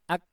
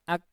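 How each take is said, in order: Both takes have the same delivery.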